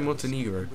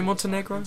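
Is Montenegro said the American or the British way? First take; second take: British; American. First: The word is said the British way. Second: The word is said the American way. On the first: "I think British people say Montenegro" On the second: "Do Americans say Montenegro?"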